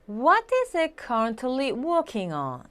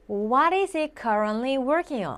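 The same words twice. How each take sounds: First: It is said with a British accent. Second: It is said with an American accent. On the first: The speaker calls it right. "다시 한번 의도적으로" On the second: The speaker calls it wrong. "제가 자꾸 미국식으로 발음하죠"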